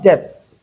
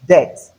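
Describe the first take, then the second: First: Depth for debts, with the B sounded; mispronounced debts. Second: Death for debts, said "dets"; silent B. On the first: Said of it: "It is not depth". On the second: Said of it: "The letter B is silent". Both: Shown as a demonstration.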